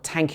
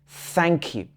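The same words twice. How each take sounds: First: The first word starts with a plain t sound. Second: The first word starts with a th sound. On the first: The speaker calls it wrong. "It's not thank you" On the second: The speaker calls it right. "it should be thank you"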